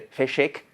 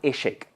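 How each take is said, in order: First: The word begins with an f sound. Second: The word begins directly with a vowel. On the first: This is the basic form of the word. "de Feshek pasamos a Eshek" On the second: This is the lenited form of the word. "de nada al principio"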